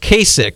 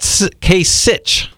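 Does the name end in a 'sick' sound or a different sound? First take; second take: sick; different. First: The name ends with a 'sick' sound. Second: The name ends with a different sound. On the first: The speaker calls it right. "his name is pronounced Kasich, like someone's sick" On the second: The speaker calls it wrong. "It's not Kasich"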